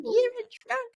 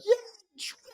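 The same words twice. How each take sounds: First: Very high squeaky mock of the line; mocking Shannon. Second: Said in the usual way. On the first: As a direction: parody her cruel bluntness in a shrill falsetto. Mocking Shannon's blunt "you're drunk.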